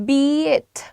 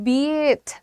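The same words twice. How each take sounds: Both takes have the same delivery.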